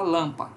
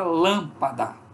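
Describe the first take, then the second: First: The final syllable is dropped, leaving two syllables. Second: All three syllables are said with full vowels. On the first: "Muita gente fala lampa" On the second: "com a palavra lâmpada"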